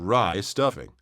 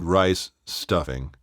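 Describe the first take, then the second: First: The s sound moves onto the second word. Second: A clear pause separates the two words. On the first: The speaker calls it wrong. "or rye stuffing" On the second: The speaker calls it right. "it has to be rice, pause, stuffing"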